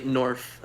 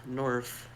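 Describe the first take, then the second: First: Said in the usual way. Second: Soft muttering under the breath; muttered to self. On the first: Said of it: "I say". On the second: Acted. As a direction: mutter it half to yourself. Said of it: "kind of mutter to myself".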